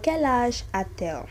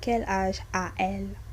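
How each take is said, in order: First: A T sound links 'a' to 'elle'. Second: No T sound links 'a' to 'elle'. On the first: The speaker calls it right. "you just put the T in the middle" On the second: The speaker calls it wrong. "it will sound funny if you say"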